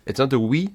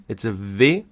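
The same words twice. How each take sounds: First: "we" said like English vee; "we" voiced with a v, the English way; wrong English V. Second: "V" said the German way as fow; "V" with an f sound, fow. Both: Shown as a demonstration.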